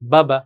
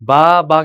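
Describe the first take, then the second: First: The vowels are short and said quickly. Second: The vowels are drawn out and lengthened. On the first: The speaker calls it right. "যত তাড়াতাড়ি সম্ভব করতে হবে।" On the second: The speaker calls it wrong. "বা বা কিন্তু বলা যাবে না, টান দেওয়া যাবে না"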